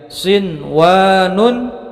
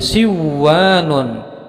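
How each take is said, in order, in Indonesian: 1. Bunyi n sebelum w diucapkan dengan jelas. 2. Bunyi n melebur ke dalam w yang mengikutinya. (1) "bacaannya jelas" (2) "tidak boleh dibaca menjadi siwanun"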